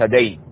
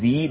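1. الصامت الأول يتبعه صائت 'a'. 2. الصامت الأول يتبعه صائت 'i'. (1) "وليس دين" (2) "تكسر الدال ولا تفتح"

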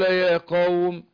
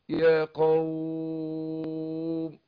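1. تُمَدّ الحركة في 'qawm' عدّتين. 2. تُمَدّ الحركة في 'qawm' ست عدّات. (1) "اثنين" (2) "ستة"

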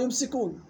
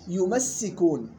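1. صوت السين مفرد وخفيف. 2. صوت السين مضعّف. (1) "في قراءات أخرى" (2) "يمسكون فيها صيغة تشديد"

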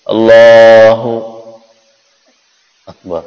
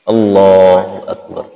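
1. Ada jeda yang sebentar di antara kedua kata itu. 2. Kedua kata itu tersambung tanpa jeda. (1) "Ataupun dikasih jedanya bentar, ... tidak boleh" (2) "tidak boleh dikasih jeda langsung ya. ... jelas"

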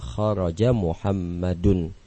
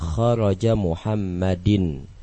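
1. Nama itu diakhiri dengan bunyi vokal u. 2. Nama itu diakhiri dengan bunyi vokal i. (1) "Harus dibaca kharaja Muhammadun ... menggunakan dhammah" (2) "Tidak boleh dibaca"

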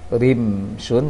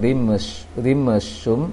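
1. Huruf mim ditahan diam tanpa dipantulkan. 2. Huruf mim dipantulkan dengan tambahan bunyi vokal. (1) "ditahan mimnya" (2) "jangan rimshum"

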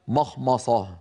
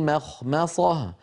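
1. أصوات الميم ثقيلة وغليظة. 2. أصوات الميم خفيفة ورقيقة. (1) "وليس مخمصة" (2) "بعد التدريب يأتي صحيحا هكذا"

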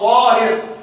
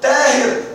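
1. الحرف الأول ثقيل ومفخم. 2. الحرف الأول خفيف ومرقق. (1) "طاء طاهر" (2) "لا تقول تاهر"

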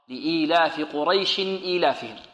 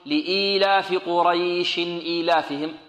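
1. الحركة في "قريش" تبقى قصيرة في وسط الجملة. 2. الحركة في "قريش" تُمَدّ في وسط الجملة. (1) "بل المد هنا في حالة الوقف فقط" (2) "لا نأتي في الوصل نقول لإيلاف قريش إيلافهم، لا خطأ"

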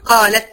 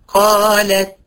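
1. الـ t الأخيرة تنتهي بفحيح مبالغ فيه ts. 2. الـ t الأخيرة تنتهي بنفس خفيف. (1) "في ناس بتطلعها اتس، ... خطأ" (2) "بدون تعسف"

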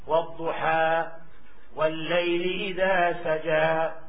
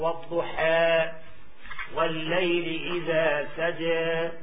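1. الحركة الأخيرة فتحة a مفتوحة كاملة. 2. الحركة الأخيرة بين a و e تماما. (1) "أما الفتح" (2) "هذا تقليل"

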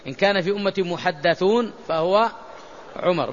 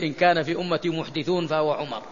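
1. الصوت بعد الدال المشددة هو 'a'. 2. الصوت بعد الدال المشددة هو 'i'. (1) "ما معنى محدثون؟ ملهمون" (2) "عكس المعنى تماما"

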